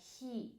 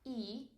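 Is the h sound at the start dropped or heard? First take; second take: heard; dropped. First: The word starts with an audible h sound. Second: The word starts with a vowel, no h. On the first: The speaker calls it right. "but he. You have to hear the H" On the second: The speaker calls it wrong. "not e"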